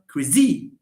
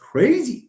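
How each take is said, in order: First: The stress is on the second syllable. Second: The stress is on the first syllable. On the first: The speaker calls it wrong. "It's not" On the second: The speaker calls it right. "No, it's"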